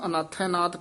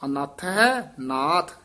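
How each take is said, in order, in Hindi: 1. यह वाक्यांश बिना विराम के एक साथ बोला जाता है। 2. वाक्यांश के अंदर हल्का सा विराम है। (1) "इकट्ठा नहीं कह देना" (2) "ऐ थोड़ा जा ठहरा"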